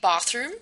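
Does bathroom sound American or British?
British. It is said in a British-type accent. The speaker comes from Britain or a similar region. "in British English, uh, also in South African English, and I think in Jamaican English, they say bathroom"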